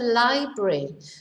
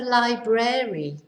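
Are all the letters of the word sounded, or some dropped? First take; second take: some dropped; all sounded. First: Some letters are dropped, not all sounded. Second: Every letter in the word is clearly sounded. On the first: The speaker calls it right. "we don't pronounce every letter" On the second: The speaker calls it wrong. "not the library"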